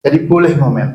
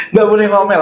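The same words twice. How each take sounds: First: Said in the usual way. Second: Mock wrong belief. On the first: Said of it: "Itu keliru". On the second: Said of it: "Ada yang menganggap begitu".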